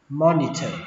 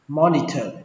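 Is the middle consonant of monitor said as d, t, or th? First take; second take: th; th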